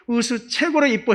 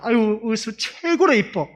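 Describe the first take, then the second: First: Said in the usual way. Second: Higher, louder, slow doting praise; fond praise. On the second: Retold or imitated. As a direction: gush over the little one. Praising the little girl fondly. (높고 느리게 귀여워하며 칭찬)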